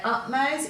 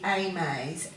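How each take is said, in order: First: The first vowel is a weak schwa. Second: The first vowel is a long A. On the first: The speaker calls it wrong. "we tend to say" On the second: The speaker calls it right. "it should be"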